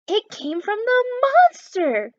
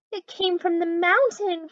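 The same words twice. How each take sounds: First: High, louder, slower fearful cry; frightened cry. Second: Higher, slightly louder anxious cry; frightened cry. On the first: Murphy terrified by the moan, crying out high and loud. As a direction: wail it in real fright. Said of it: "cried Murphy". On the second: Mitzi frightened by the moan, crying out mildly. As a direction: cry out a little scared. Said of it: "cried Mitzi". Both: Acted.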